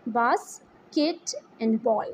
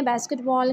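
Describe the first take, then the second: First: "बास, किट and ball" in three separate beats; split into syllables. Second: Said in the usual way. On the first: Shown as a demonstration. Teacher counts syllables for pupils, "बास, किट and ball" spoken piece by piece. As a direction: pause after each part of "बास, किट and ball". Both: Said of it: "first word के three syllables हैं".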